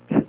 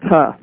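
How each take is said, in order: First: The t is said alone without a vowel. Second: The t is followed by an added vowel. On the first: The speaker calls it right. "It's just t" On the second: The speaker calls it wrong. "they might be being taught that the sound of T is tuh. Well, it's really not"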